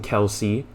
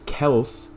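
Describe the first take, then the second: First: The name is said with two syllables. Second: The name is said as one syllable, 'Kels'.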